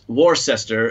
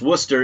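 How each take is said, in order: First: It is said with an American pronunciation. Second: It is said with a British pronunciation.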